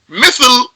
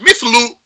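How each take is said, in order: First: The word ends on a bare consonant. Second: The word ends with a short vowel. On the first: The speaker calls it right. "I need to stop on a sukoon" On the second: The speaker calls it wrong.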